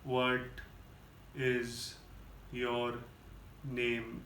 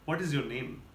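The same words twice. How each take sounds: First: It is said very slowly. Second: It is said at normal speed.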